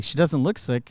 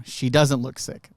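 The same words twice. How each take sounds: First: Said in the usual way. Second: Slower, leaning on doesn't; sincere agreement stressing doesn't. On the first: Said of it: "you'd be like". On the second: Real, not acted. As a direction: weigh the word doesn't, slowly. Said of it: "and I would agree with you".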